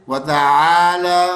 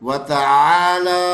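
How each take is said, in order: No difference in how they are said.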